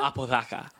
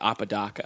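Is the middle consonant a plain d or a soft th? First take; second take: soft th; plain d. First: The middle consonant is a soft th sound. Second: The middle consonant is a plain English d. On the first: "I think it like has like a Spanish pronunciation... I think it has like a th in it" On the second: "because I'm from Southern California, I say Apodaca"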